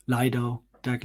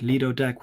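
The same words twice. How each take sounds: First: "Lido" said as LIE-doh; first syllable of "Lido" rhymes with "eye"; alternative pronunciation. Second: "Lido" said as LEE-doh; first syllable of "Lido" rhymes with "see"; first pronunciation. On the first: Tries other pronunciation of Lido. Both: Shown as a demonstration.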